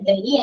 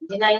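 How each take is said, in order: First: It is said 'deh-nee', ending in an ee sound. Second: It is said 'di-nai', ending in an eye sound. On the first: The speaker calls it wrong. "അതിന് ഡെനി അല്ല, നമ്മളെല്ലാവരും ഡെനി എന്നാണ് പണ്ട് വായിച്ചിട്ടത്" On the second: The speaker calls it right. "ഡിനൈ ഡിനൈ എന്നാ പറയാ കേട്ടോ"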